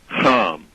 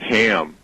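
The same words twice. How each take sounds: First: The name is said in a less common way. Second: The name is said the common English way.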